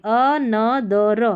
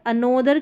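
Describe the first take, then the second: First: "another" drawn out slowly as a-na-da-ra; "another" broken into slow syllables, open A in the middle; syllable-by-syllable pronunciation. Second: "another" with a long O, a-NO-dar; "another" mispronounced with an O sound; wrong pronunciation. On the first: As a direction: sound out "another" slowly, a-NA-dar. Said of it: "हम another पढ़ेंगे". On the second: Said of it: "की जगह हम another पढ़ेंगे". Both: Shown as a demonstration.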